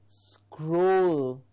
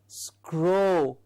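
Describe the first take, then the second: The two takes are said the same way.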